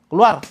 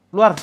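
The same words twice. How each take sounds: Both takes have the same delivery.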